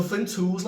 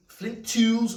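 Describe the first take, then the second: First: Said in the usual way. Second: "flint tools" with a slight Scouse Liverpool twang on "tools"; "tools" drawn out in a light Scouse Liverpool lilt; Scouse accent slip. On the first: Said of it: "I don't know why I pronounce it like that". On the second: Real, not acted. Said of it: "It's the Scouse accent".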